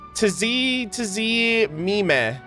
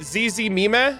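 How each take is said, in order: First: The word begins with a sounded T. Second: The word begins without a T sound.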